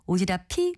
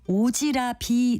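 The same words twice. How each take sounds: First: The consonant after 'ra' sounds like an aspirated p. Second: The consonant after 'ra' sounds like a soft b. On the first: The speaker calls it right. "마지막 음절의 받침이 피읍이니까 ... 제가 말한 대로 오지랖이 넓다로 발음하는 것이 맞습니다" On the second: The speaker calls it wrong. "오지랖이 넓다로 발음하는 분들이 상당히 많습니다"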